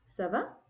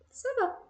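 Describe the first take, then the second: First: The voice rises at the end, as a question. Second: The voice falls at the end, as an answer.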